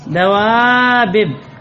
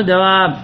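First: دوابب drawn out very slowly with both ba sounds split apart; original form. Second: دواب said with the doubled ba merged into one stressed sound; contracted form. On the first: Teacher showing students the original form, slowly drawn out. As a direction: spell out دوابب slowly as dawabib, unmerged. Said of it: "هكذا أصلها". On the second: Teacher giving the form the Arabs actually say, merged. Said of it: "قالوا دواب". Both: Shown as a demonstration.

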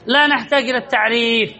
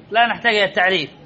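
First: Said in the usual way. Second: لا نحتاج إلى التعريف rattled off fast and softer, lower; teacher repeats the rule to students, quickly and more softly. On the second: Shown as a demonstration. Teacher murmurs the rule again, fast and softer.

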